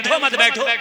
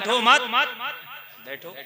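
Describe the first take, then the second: First: It is said without any pause. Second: The pause comes after 'matt', meaning stay seated.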